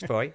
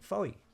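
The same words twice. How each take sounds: First: It uses the local Cornish pronunciation of the name. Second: It uses an outsider's pronunciation of the name. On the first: This is how local people say it. The speaker calls it right. "corrected me very quickly. It's Foy" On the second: The speaker did not know the local form. The speaker calls it wrong. "in my ignorance, I'd always called it Foy"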